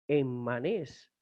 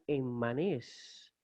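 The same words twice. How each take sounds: First: The double m is split between syllables. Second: The double m is split between syllables.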